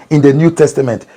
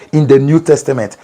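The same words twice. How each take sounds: The two takes are said the same way.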